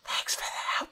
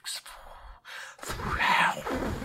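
First: It is said in a plain, ordinary way. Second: It is said in a sensual, breathy way.

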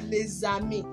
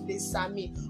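First: The linking sound is a buzzing Z sound. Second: The linking sound is a hissing S sound. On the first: The speaker calls it right. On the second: The speaker calls it wrong.

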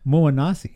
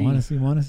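First: The name begins with an M sound. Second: The name begins with a W sound. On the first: The speaker calls it wrong. "you're actually saying it wrong" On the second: The speaker calls it right. "it sounds like Wanasi"

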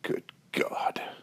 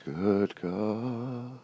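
First: It is a casual, exasperated exclamation. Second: It is said sincerely, with reverent feeling.

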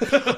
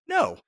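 First: It is said in a Palpatine impression voice. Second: It is said in the speaker's normal voice.

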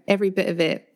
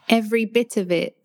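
First: The T in bit is a glottal stop. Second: The T in bit is fully pronounced. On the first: This is lazy, informal speech among friends. "if I'm like informally speaking with friends and I'm feeling really lazy" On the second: This is careful, everyday podcast speech. "Not when I'm like talking on a podcast"

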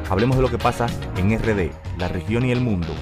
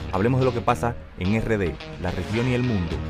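No difference in how they are said.

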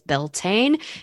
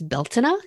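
First: It is said in the usual non-Irish way. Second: It is said the way Irish speakers say it.

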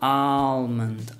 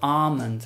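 First: The L sound is pronounced in the word. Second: The L sound is left silent in the word. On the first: "in the United States, I think they do pronounce the L" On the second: "In the UK, it's almond"

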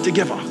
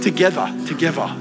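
First: It is said in a more neutral accent. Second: It is said in a broad rural Australian accent. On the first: The speaker calls it right. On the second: The speaker calls it wrong.

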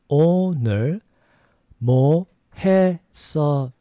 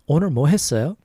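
First: It is said at a slower pace. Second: It is said at a faster pace.

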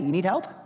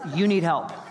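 First: The voice sounds friendly and offering. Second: The voice sounds scornful and dismissive. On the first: The speaker is offering to help. "Same words, different tone" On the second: The listener is in such trouble that no one can help. "One is really positive and one is really negative"

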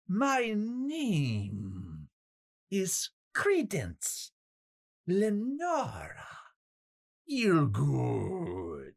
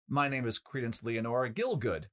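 First: It is drawn out with pitch swooping up and down. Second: It is said plainly and simply.

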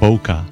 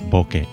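First: It ends like poker, with an -er ending. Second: It ends with ke as in kettle. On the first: The speaker calls it wrong. "That rhymes with poker" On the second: The speaker calls it right. "put the bo and the ke together to make bokeh"

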